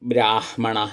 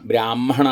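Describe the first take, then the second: First: The h sound comes before the m. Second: The h sound comes after the m. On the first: The speaker calls it right. "അങ്ങനെയാണ്" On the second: The speaker calls it wrong. "എന്നല്ല, മകാരം കഴിഞ്ഞിട്ടല്ല ഹകാരം"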